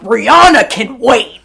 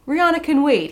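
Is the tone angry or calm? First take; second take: angry; calm. First: It is said in an aggressive, angry tone. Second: It is said in a calm, neutral tone. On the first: "He said it like a dad who was angry at his daughter" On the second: "he didn't say it like"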